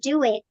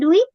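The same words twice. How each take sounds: First: "do it" with both words clear; correct "do it". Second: "do it" run together, like "duit"; the wrong merged "do it". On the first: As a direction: separate "do" and "it" cleanly. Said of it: "tetapi do it". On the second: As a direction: say "do it" as one blur, "duit". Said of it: "bukan do it". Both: Shown as a demonstration.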